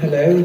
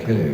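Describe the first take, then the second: First: It is high-pitched and charming. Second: It is low-pitched and flat.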